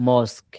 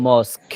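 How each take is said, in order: No difference in how they are said.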